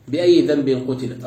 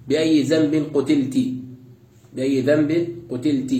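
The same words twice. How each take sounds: First: Said in the usual way. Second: قتلت ending in an i: qutilti; kasra on final ta. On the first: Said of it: "وقرئ بكسر التاء". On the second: Shown as a demonstration. Teacher reciting the variant addressed to the girl, قتلت as qutilti. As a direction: end قتلت on "-ti", as if addressing her. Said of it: "قرئ بكسر التاء".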